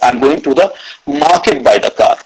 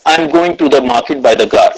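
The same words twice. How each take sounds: First: The word 'market' carries the stress. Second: No word stands out; it sounds flat. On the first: "Third is market" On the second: "said it or read it like a robot"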